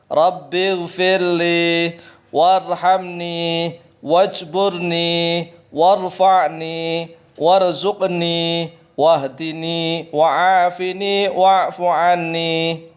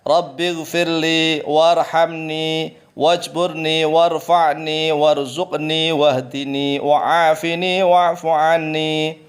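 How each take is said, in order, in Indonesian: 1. Dibaca dengan pelan. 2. Dibaca dengan tempo normal.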